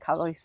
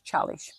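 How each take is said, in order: First: The word begins with a k sound. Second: The word begins with a ch sound. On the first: The speaker calls it wrong. "we were constantly calling it Callis. It wasn't Callis at all" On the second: The speaker calls it right. "It was Chalish"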